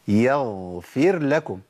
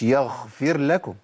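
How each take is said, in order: First: يغفر said slowly with a fully voiced gh; correct ghayn. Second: يغفر said with a voiceless kha, as يخفر; wrong kha sound. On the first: Teacher models the right ghayn in يغفر for students. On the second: Teacher models the wrong kha-like ghayn for students. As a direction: let the ghayn slip into a breathy kha in يغفر. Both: Shown as a demonstration. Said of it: "مش يغفر لكم".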